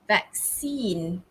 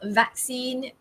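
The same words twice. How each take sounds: First: The stress is on the second syllable. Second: The stress is on the first syllable. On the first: This is the American way of saying it. "The stress is on the second syllable" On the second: This is the British way of saying it. "The stress falls on the first syllable"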